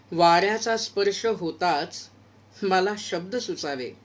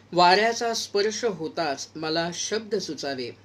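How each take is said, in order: Both takes have the same delivery.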